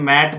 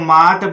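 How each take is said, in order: First: The vowel is a flat front 'ae' sound. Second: The vowel is an open 'aa' sound. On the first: The speaker calls it right. "इसको मैट बोलेंगे" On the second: The speaker calls it wrong. "ए से आ कहा ... जो कि बिल्कुल गलत है"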